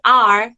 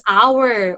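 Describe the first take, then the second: First: "our" said as AR; one-syllable our. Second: "our" said as OW-er; two-syllable our. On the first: Teacher offering pupils the other form, "our" said like "are". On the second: Teacher offering pupils the pronoun, "our" said like "hour". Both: Shown as a demonstration. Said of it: "use our or our".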